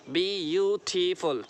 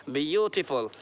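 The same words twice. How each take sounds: First: ब्यूटीफुल slowly broken into four parts; split into syllables. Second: Said in the usual way. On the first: Shown as a demonstration. Teacher counting parts of a word for students, ब्यूटीफुल syllable by syllable. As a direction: stretch each syllable of ब्यूटीफुल, bi-yu-ti-ful. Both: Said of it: "चार part हुए".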